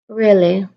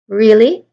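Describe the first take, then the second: First: The pitch stays flat throughout the word. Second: The pitch rises at the end of the word. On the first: The person is not interested. "voice staying at pretty much the same level throughout the word" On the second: The person is surprised. "So there's a rising tone there"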